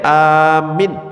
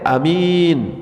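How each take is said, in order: First: Only the first vowel is long. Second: Only the second vowel is long. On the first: It means asking for protection. "a-nya yang panjang, minnya yang pendek" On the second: It means honest. "minnya yang panjang, a-nya pendek"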